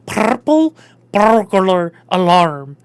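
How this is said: It is said in Irish with a rolled r. The speaker calls it right. "a little bit of like a rolling of the purple"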